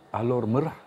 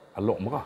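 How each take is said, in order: First: The first word ends with an r sound. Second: The first word ends with a k sound. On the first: The speaker calls it wrong. "Bukan Alor Merah" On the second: The speaker calls it right. "orang Kedah sebut sebagai Alok Merah"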